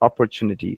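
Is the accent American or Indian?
American. It is said with an American English accent. "perhaps an American would say"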